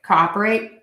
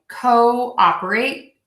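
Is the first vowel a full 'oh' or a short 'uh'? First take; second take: short uh; full oh. First: The first vowel is a short 'uh' sound. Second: The first vowel is a full 'oh' sound. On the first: "with a short uh sound" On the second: "Let me just do it normally"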